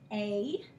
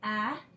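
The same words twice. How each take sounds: First: The vowel sounds like the letter's name. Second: The vowel is short, as in cat. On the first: "a long A is pronounced A" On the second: "Different than short vowels, which would be"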